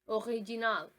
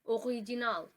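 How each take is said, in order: First: It is pronounced the French way. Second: It is pronounced the French way.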